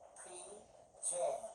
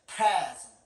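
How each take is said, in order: First: The stress is on the second syllable. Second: The stress is on the first syllable.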